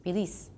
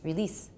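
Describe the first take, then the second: First: The E vowel is cut short. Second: The E vowel is cut short.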